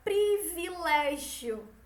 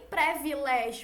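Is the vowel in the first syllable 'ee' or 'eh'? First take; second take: ee; eh. First: The first syllable has an 'ee' vowel. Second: The first syllable has an 'eh' vowel. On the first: The speaker calls it right. "é privilégio" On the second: The speaker calls it wrong. "Nem privilégio"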